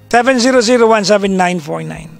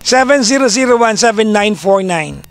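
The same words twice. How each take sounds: First: The digits are slurred together and unclear. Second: The digits are spoken clearly and distinctly. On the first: The speaker calls it wrong. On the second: The speaker calls it right.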